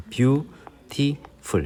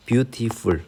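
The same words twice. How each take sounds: First: "beautiful" very slowly broken into beau-ti-ful; three separate syllables. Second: Said in the usual way. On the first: Shown as a demonstration. Teacher counting syllables for learners, "beautiful" in three separate beats. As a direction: sound out "beautiful" beat by beat, higher, with gaps between. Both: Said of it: "이렇게 삼음절이 되는 거예요".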